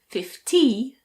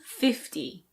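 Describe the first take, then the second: First: The stress is on the second syllable. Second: The stress is on the first syllable. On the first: The speaker calls it wrong. "people will probably think you're saying fifteen" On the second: The speaker calls it right. "This is fifty"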